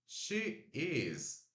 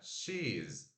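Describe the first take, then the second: First: Two separate words are said in full. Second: The two words are joined into one syllable. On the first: "She is vira she's" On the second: "She is vira she's"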